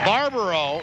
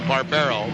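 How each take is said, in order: First: The middle vowel sounds like 'ah'. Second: The middle vowel sounds like 'eh'. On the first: The speaker calls it wrong. "excuse me" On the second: The speaker calls it right. "is the way that it is pronounced properly"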